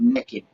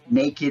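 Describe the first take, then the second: First: The word has a Southern regional pronunciation. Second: The word has a standard general American pronunciation. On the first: "where I come from, from my mama's part of the South, we all said naked" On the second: "if you want to say it that way"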